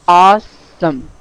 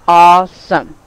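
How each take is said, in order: The two takes are said the same way.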